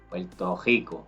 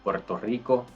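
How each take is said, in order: First: The R in Rico is made in the throat. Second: The R in Rico is made at the front. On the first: The speaker calls it wrong. "It comes from the throat" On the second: The speaker calls it right. "Some people like to say it correctly"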